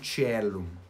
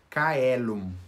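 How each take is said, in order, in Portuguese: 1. A palavra começa com um som de ch suave. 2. A palavra começa com um som de k forte. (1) "e não Cielum" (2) "para a pronúncia reconstituída ou pronúncia restaurada, a mesma coisa, eles falam Caelum"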